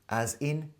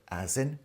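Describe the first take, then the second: Both takes have the same delivery.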